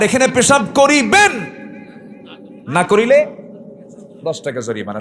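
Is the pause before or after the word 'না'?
before. The pause comes before 'না'.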